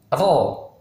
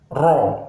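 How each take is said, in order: First: Ro rolled from the tongue tip, lips flat; correct Arabic ra. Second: Slow ro with pushed-out lips; wrong rounded ro. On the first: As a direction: say "ro" Arabic style. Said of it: "Jadi yang benar". ("ro" yang benar tanpa bibir monyong) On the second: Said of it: "bukan ro". ("ro" salah bibir monyong) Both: Shown as a demonstration.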